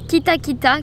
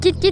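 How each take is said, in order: First: It is said with four full syllables. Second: It is clipped to two short syllables. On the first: This is the original Maori word. The speaker calls it right. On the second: This is how Westerners say it. The speaker calls it wrong.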